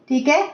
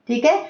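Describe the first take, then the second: Both takes have the same delivery.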